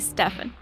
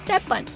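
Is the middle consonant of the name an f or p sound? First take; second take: f; p. First: The middle consonant is an f sound. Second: The middle consonant is a p sound. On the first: "But I want to say Stefan" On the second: "Like Stepan"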